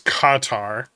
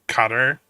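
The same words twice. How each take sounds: First: It is said the native, local way. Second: It is said the usual American way. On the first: "The proper pronunciation actually is it's Qatar" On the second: "as Americans we just say Qatar"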